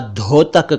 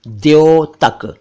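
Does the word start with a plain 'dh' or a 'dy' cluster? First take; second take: plain dh; dy cluster. First: The first sound is a plain aspirated 'dh'. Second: The first sound is a 'dy' cluster. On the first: The speaker calls it wrong. "इसे कई लोग द्योतक या धोतक कहते हैं" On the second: The speaker calls it right. "जबकि यह है द्योतक"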